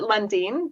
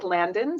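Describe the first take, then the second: First: The first vowel sounds like 'uh'. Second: The first vowel sounds like 'a' in 'cat'. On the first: This is how the family says the name. "We pronounce it Lundin" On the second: This is how the spelling suggests the name is said. "but it looks like Landon"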